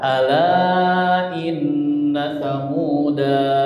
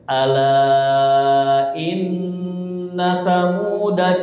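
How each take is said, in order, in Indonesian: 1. Vokal akhirnya panjang, diakhiri dengan hambat. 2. Vokal akhirnya pendek, terus bersambung. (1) "kalau diwakafkan maka dia dibaca" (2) "kalau disambung maka bacanya pendek"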